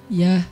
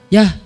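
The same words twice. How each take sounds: First: It is said in a friendly, soft tone. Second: It is said in a curt, harsh tone.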